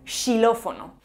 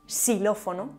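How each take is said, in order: First: The word begins with a sh sound. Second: The word begins with an s sound. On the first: "o incluso como sh" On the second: "además de como x o s"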